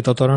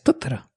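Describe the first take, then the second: First: Said in the usual way. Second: Totoro with the stress moved to its first TO; stress on first syllable. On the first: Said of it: "se convierte en una esdrújula". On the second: Shown as a demonstration. Host shows the surprise pronunciation, Totoro stressed on the first syllable. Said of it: "se convierte en una esdrújula, eh, inesperada".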